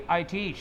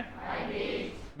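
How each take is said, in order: First: Said in the usual way. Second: Whispered echo. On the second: Shown as a demonstration. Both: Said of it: "क्या बोला मैंने?".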